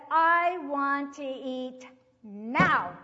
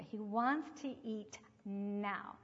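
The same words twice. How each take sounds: First: Very loud, slow, every word stretched; insistent demand. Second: Said in the usual way. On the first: Retold or imitated. Hungry boy insisting to his teacher, loud drawn-out demand. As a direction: imitate a child demanding, hammering a long "now".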